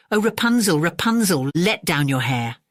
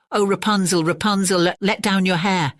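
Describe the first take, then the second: First: Witch calling out. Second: The prince calling up the tower, copying the call; a prince calling gently but clearly. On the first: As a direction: call up the tower like a witch. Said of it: "she called out". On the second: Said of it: "he went to the tower and cried". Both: A narrator's reading.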